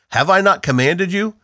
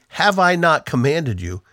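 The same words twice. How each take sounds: First: "not" leaned on, question rising at the end; stress on not. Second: "I" given the main weight, the rest kept level; stress on I. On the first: Reading God's question to Joshua, weight on "not". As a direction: press on "not" in "Have I not commanded you?". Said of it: "God is really emphasizing". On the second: Pastor showing that God himself speaks, stress on "I". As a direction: lean on "I" in "Have I not commanded you?". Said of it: "God is really emphasizing the fact that he". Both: Shown as a demonstration.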